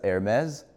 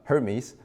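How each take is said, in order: First: The name is said with a French pronunciation. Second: The name is said with an English pronunciation. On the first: It refers to the French fashion brand. The speaker calls it wrong. "I'm not gonna pronounce it as Hermes. We're not talking about the French grocery bag company" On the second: It refers to the Greek god. The speaker calls it right. "I'm gonna pronounce it as an English person would"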